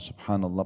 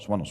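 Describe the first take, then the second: First: It is said slowly and clearly. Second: It is said quickly and rushed.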